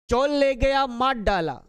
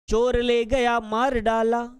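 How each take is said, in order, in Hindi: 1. यह जल्दी बोला जाता है, जिसमें r की जगह l हो जाता है। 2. यह धीरे बोला जाता है, साफ़ r की आवाज़ के साथ। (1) "यदि आप बहुत जल्दी बोले तो उच्चारण इस प्रकार होगा" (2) "जब हम संभाल संभाल कर बोलते हैं"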